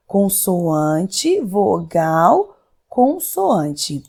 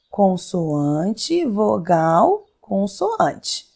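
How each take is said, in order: First: Consoante, vogal, consoante, each word its own rising beat; name each letter type separately, rising on the first two; spelled out slowly. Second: Consoante, vogal, consoante, rising then falling on the last; spelled out slowly. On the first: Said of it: "C V C". (consoante, vogal, consoante, cada palavra com subida) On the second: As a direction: tick off each letter type, dropping at consoante. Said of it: "ó, stop". (consoante, vogal, consoante, caindo no final) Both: Shown as a demonstration.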